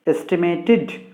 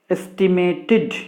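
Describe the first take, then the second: The two takes are said the same way.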